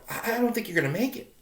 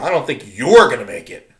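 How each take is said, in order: First: The stress is not on "you're". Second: The stress is on "you're".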